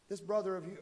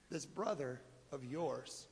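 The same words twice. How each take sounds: First: Said in the usual way. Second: "brother" stressed, said slowly and much softer; soft slow correction. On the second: Acted. Father correcting his older son, soft stress on "brother". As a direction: lean gently on "brother" as you correct him.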